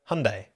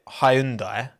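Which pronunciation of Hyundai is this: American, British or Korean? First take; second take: Korean; British. First: It is said with a Korean pronunciation. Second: It is said with a British pronunciation. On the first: The speaker calls it right. "But the Koreans pronounce it Hyundai" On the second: The speaker calls it wrong. "British pronounce it Hyundai"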